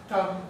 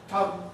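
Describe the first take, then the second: Both takes have the same delivery.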